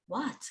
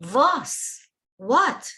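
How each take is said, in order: First: Was and What asked softly, pitch still lifted, almost to oneself; hushed what. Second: Was and What flung out high and loud, a pressing question; loud stressed what. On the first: Teacher echoing the Rebbe's question after the excuses, softly. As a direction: drop to a near-hush on Was and What. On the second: Teacher repeating the Rebbe's demand to lazy thinkers, loud and stressed. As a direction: throw Was, then What, straight at the listener. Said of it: "stressing it in a loud voice from the depths of his heart". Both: Retold or imitated.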